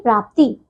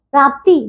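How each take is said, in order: First: Said in the usual way. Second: प्राप्ति with a long final "ee"; mispronounced प्राप्ति. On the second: Shown as a demonstration. Teacher shows pupils the error, long "tee" in प्राप्ति. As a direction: stretch the end of प्राप्ति, "praaptee". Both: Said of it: "नहीं".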